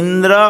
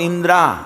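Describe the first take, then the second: First: The word ends in a short vowel. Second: The word ends in a long 'aa' vowel. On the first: The speaker calls it right. "इंद्रह बोलना था" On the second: The speaker calls it wrong. "इंद्रा कानो मात्र का आ गया"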